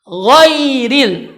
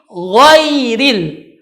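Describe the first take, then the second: No difference in how they are said.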